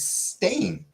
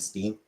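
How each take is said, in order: First: The vowel is an 'ay' sound. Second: The vowel is an 'ee' sound. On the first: The speaker calls it right. "It's stain" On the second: The speaker calls it wrong. "everyone and their mom said Steen"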